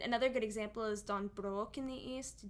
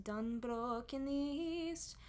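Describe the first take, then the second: First: Said in the usual way. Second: "Don Brook in the East" sung slow with stretched vowels; slow stretched folk pronunciation; drawn-out folk vowels. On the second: Shown as a demonstration. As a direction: linger on "Brook" and "East" like a choral folk singer. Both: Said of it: "Normally I'd say Don".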